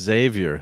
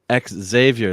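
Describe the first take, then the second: First: The name begins with a 'z' sound. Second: The name begins with an 'ex' sound. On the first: The speaker calls it right. "It's just Xavier" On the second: The speaker calls it wrong. "they'd say X Xavier"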